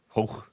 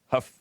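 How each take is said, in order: First: The name rhymes with go. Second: The name rhymes with stuff. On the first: The speaker calls it wrong. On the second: The speaker calls it right.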